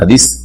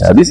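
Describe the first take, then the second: First: The word ends with an s-sound. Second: The word ends with a th-sound. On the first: The speaker calls it wrong. "না" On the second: The speaker calls it right. "হাদিস না হাদিস"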